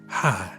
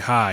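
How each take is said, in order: First: It is said in a put-on sexy voice. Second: It is said as a plain greeting.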